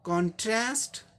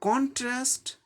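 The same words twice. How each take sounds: First: The stress is on the second syllable. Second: The stress is on the first syllable. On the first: It is used as a verb. "दूसरे पे जोर देना है।" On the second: It is used as a noun. "ये था contrast"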